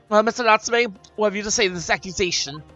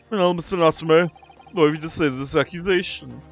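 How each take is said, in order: First: It is said in a posh voice. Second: It is said in a gruff, Garada-like voice.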